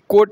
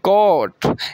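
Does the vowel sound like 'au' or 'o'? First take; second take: o; au. First: The vowel sounds like 'o'. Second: The vowel sounds like 'au'. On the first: The speaker calls it wrong. "कोट नहीं" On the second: The speaker calls it right. "यहाँ पे औ का उच्चारण हो रहा है"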